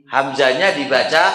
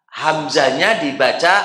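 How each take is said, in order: Both takes have the same delivery.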